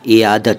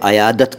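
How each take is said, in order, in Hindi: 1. यह शब्द 'i' स्वर से शुरू होता है। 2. यह शब्द 'a' स्वर से शुरू होता है। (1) "लेकिन सही उच्चारण इसका इयादत है" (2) "इसको अनेक लोग अयादत कहते हैं"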